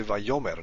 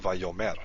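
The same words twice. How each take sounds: First: Vayomer with the stress where the accent mark shows; teacher modelling the correct stress on Vayomer. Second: Vayomer with the stress on the wrong syllable; teacher contrasting the wrong stress on Vayomer. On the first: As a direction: say Vayomer the right way, stress as marked. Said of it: "we know to say Vayomer". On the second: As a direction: demo the mistaken Vayomer, stress misplaced. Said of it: "not Vayomer". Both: Shown as a demonstration.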